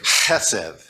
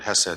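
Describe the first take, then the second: First: It begins with a harsh, throaty rasping sound. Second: It begins with a soft, plain h sound. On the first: "Sorry, did I get you?" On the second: "That's the American English way to say the word Hesed"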